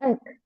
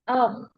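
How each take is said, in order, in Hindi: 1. यह अक्षर पतला और हल्का बोला जाता है। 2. यह अक्षर मोटा और ऊँचा बोला जाता है। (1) "Not ek" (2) "thick and high sounding letter"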